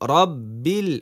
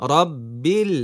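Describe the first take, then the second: No difference in how they are said.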